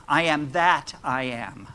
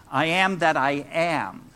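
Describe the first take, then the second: First: "that" stressed, then a slight break before "I am". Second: Both "am"s stressed, "that" kept light. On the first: Preacher offers another reading of the koan, stressing "that". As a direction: lean on "that" in "I am that I am". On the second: Preacher offers another reading of the koan, stressing "am". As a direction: lean on "am" in "I am that I am". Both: Shown as a demonstration. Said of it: "Those are all different ways of looking at".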